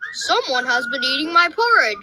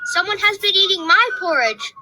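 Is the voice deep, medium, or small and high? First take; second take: deep; small and high. First: It is said in a great big, deep voice. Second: It is said in a wee, small, high voice.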